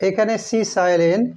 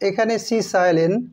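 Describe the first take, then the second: The two takes are said the same way.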